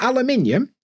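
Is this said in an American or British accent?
British. It is said in a British accent. "Not aluminium"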